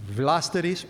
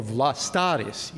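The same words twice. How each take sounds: First: "Vlasteris" with stress on the first syllable, VLAS-te-ris; alternative pronunciation. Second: "Vlastaris" with stress on the middle syllable, vla-STAR-is; alternative pronunciation. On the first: Lecturer offering either way of a monk's name, "Vlasteris" as VLAS-te-ris. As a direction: say "Vlasteris" as VLAS-te-ris, weak middle vowel. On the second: Lecturer offering either way of a monk's name, "Vlastaris" as vla-STAR-is. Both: Shown as a demonstration. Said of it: "you can pronounce it either way".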